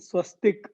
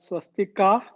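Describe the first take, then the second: First: The word ends on a consonant sound. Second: The word ends with a final vowel sound. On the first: The speaker calls it right. "The swastik is the right pronunciation" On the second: The speaker calls it wrong. "don't call it swastika"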